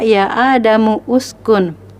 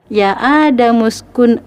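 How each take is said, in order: First: The starting vowel of uskun is sounded separately. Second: The starting vowel of uskun is dropped and joined. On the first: The speaker calls it wrong. "tidak ya Adamu uskun" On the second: The speaker calls it right. "tapi langsung ya, karena hamzah wasal tengah tidak dibaca"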